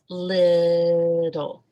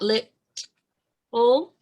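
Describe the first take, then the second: First: The middle T is a soft, D-like sound. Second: The middle T is a strong, aspirated T. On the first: The speaker calls it right. "No aspiration. It's just little" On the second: The speaker calls it wrong. "It's not lit full. No aspiration"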